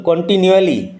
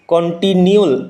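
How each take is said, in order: First: "কন্টিনিউয়ালি" said fully with the -ali ending; full correct form. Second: "কন্টিনিউল" clipped short before the ending, slowly; a halting first try that cuts off the word. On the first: Teacher correcting himself on continually, full form. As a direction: finish the word properly, falling at the end. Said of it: "corrected pronunciation". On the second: Teacher's first halting try at continually, clipped. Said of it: "wrong then corrected word". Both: Shown as a demonstration.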